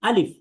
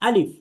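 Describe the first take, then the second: No difference in how they are said.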